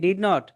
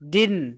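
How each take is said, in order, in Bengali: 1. দুটো পূর্ণ শব্দ বলা হয়, did আর not। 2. একটি ছোট শব্দ বলা হয়, শেষের t ছাড়া। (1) "দাদার বাপে উচ্চারণ করতো কি? ডিড নট" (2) "এখন আমার বাপে উচ্চারণ করে কি? ডিন"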